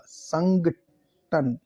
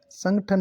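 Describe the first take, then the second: First: Very slow "संगठन", sangh then tan; drawn-out "संगठन" with aspirated gh; syllable by syllable. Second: Higher-pitched "संगठन" with plain g; quick "संगठन" as sang-than; "संगठन" in one run, g unaspirated; wrong pronunciation. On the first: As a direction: split "संगठन" with a long gap, gh in the middle. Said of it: "घ आएगा". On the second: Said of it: "ग नहीं होगा". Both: Shown as a demonstration.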